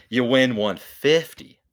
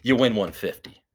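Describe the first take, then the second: First: "win" stretched and lifted, drawn out; slow hype on win. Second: Said in the usual way. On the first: Shown as a demonstration. Hyping the payout for podcast listeners, slow and emphatic. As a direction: sell "You win one fifty" slowly like a pitchman. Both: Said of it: "it sounds better when you say".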